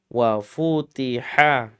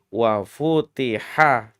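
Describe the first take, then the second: Both takes have the same delivery.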